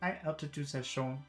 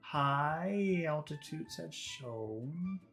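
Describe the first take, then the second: First: The vowels are short and rushed. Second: The vowels are held long and exaggerated. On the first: The speaker calls it wrong. "if you don't give them time" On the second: The speaker calls it right. "it's good to start by exaggerating like this"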